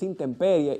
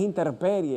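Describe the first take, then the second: First: The middle has an M sound. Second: The middle has an R instead of an M. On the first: The speaker calls it right. "es intemperie" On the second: The speaker calls it wrong. "no es interperie"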